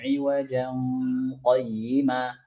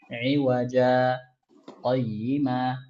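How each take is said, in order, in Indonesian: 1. Kedua kata itu tersambung tanpa jeda. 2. Jeda singkat memisahkan kedua kata itu. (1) "itu kita sambung kayak gini, Itu tidak sakta" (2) "Kalau sakta"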